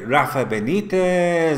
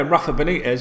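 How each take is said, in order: First: The name is said in a put-on Spanish accent. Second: The name is said in a plain English accent. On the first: "with the lingo of the Spanish accent" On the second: "instead of going"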